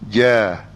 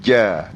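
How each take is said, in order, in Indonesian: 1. Konsonan dilepas dengan longgar tanpa ditahan. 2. Konsonan ditahan dengan kuat di titik artikulasinya. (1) "bukan kata ja" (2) "tetapi ja, lekat"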